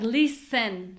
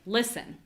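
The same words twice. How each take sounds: First: The second syllable has a full, clear vowel. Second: The second syllable has a short, reduced vowel. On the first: The speaker calls it wrong. "if it sounds like listen, sen, sen, that's too much vowel" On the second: The speaker calls it right. "We need less vowel"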